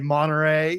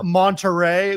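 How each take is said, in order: First: The T in Monterey is dropped. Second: The T in Monterey is clearly pronounced. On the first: This is how locals say it. "We say Monterey" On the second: Locals do not say it this way. "don't say Mo- Monterey"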